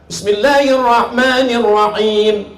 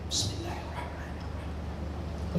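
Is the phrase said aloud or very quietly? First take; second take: aloud; quietly. First: It is said aloud, clearly audible. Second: It is said very quietly, almost silent.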